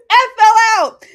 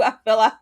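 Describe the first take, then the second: First: "I fell out." much louder and higher; louder laughing exclaim. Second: Said in the usual way. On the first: Real, not acted. Streamer reliving the painting scene, much louder and higher. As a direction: shout it out, cracking up.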